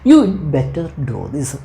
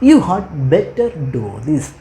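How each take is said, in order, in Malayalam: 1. 'had' എന്ന വാക്ക് 'you'യോട് ചേർത്ത് ചുരുക്കിയാണ് പറയുന്നത്. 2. 'had' എന്ന വാക്ക് പൂർണ്ണമായാണ് പറയുന്നത്.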